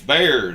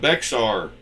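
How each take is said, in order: First: It is said as one syllable, like 'bear'. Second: It is said as two syllables, like 'bex-ar'. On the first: The speaker calls it right. "It's Bear" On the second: The speaker calls it wrong. "not Bexar"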